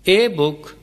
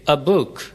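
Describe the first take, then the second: First: The article is a full separate 'ay' sound. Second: The article is a weak vowel joined on. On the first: The speaker calls it wrong. "कहना दुरुस्त नहीं" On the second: The speaker calls it right. "अलिफ की हल्की सी आवाज देते हैं ... इसे अगले लफ्ज के साथ ही मिला देते हैं"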